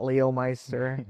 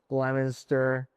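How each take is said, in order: First: The town name is said a non-local way. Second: The town name is said the local way. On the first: The speaker calls it wrong. "not Leomeister" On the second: The speaker calls it right. "They'll say like the towns correctly"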